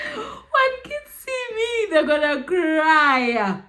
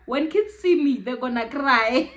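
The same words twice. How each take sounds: First: High, slow, half-laughing half-crying; sobbing laugh, pitch way up; crying repeat. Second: Said in the usual way. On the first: Real, not acted. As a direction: let the hurt break through, drawn out. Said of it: "repeated, high and slow, crying". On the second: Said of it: "first take, said plainly".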